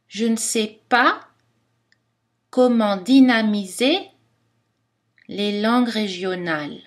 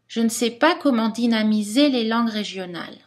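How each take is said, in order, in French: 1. Elle est prononcée lentement, avec des montées bien marquées. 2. Elle est prononcée à une vitesse normale.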